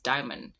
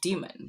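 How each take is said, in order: First: The first syllable sounds like 'die'. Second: The first syllable sounds like 'dee'. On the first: This is the earlier philosophical pronunciation. "it used to first be pronounced diamond" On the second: This is the later church pronunciation. "earlier in the church they used to pronounce demon"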